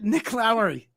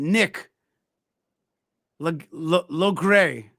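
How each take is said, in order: First: The surname is said without a g sound, Lowry. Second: The surname is said with a g sound, Logray. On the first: The speaker calls it right. "I meant Nick Lowry" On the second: The speaker calls it wrong. "Is that the is that the right way to pronounce it?"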